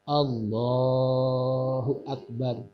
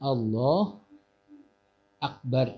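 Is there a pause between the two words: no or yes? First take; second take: no; yes. First: The two words run together without a break. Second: A clear pause separates the two words. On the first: The speaker calls it right. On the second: The speaker calls it wrong.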